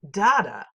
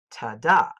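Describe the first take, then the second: First: "da-da" with strong first "da" and weak second; trochee rhythm. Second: "ta-da" with weak "ta" and stressed "da"; iamb rhythm. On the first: Teacher demonstrating the trochee beat: "da-da", first syllable hit. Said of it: "The trochee sounds like da-da". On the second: Teacher demonstrating the iamb beat: "ta-da", second syllable hit. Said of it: "The iamb sounds like ta-da". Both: Shown as a demonstration.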